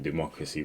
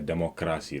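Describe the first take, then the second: First: It is pronounced the standard way. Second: It is pronounced the Gambian way. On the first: "they don't say democracy" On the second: "Gambians, they say democracy"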